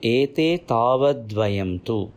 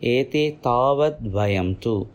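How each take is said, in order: First: The words are merged together in one flow. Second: The words are merged together in one flow.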